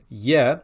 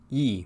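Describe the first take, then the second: First: The letter is pronounced like 'ye'. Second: The letter is pronounced like 'yi'. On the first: This is the Russian way of reading it. "Russians will, will pronounce this letter as ye" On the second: This is the Lemko and Rusnak way of reading it. "Lemkos and Rusnaks will pronounce it more as yi"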